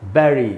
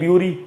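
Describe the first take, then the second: First: The first vowel sounds like eh. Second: The first vowel sounds like yoo. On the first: The speaker calls it right. "इसका शुद्ध उच्चारण है" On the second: The speaker calls it wrong. "दोनों ही उच्चारण गलत है"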